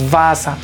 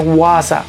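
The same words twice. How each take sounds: First: The word begins with a v sound. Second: The word begins with a w sound. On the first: The speaker calls it right. "La W en alemán la pronunciamos como si fuera una V" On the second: The speaker calls it wrong. "no se lee Wasser"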